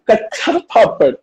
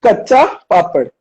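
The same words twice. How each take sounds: First: Kacha papad said carefully; over enunciating. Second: Kacha papad slow, each syllable clear; slow over enunciating. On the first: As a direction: stress each syllable of Kacha papad. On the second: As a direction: spell out Kacha papad slowly. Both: Shown as a demonstration. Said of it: "One more time slowly".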